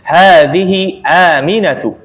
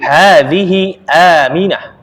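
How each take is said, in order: First: The name ends with a full 'atu' sound. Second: The name ends with a short 'ah' sound. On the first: The speaker calls it right. "harusnya dibaca" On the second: The speaker calls it wrong. "afan salah ya"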